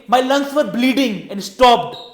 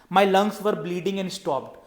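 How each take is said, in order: First: It is said with high, lively vocal variety. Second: It is said flatly, with little vocal range. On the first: The speaker calls it right. "on the higher note, ... you could have mentioned in a way" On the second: The speaker calls it wrong. "there was a phrase in your speech"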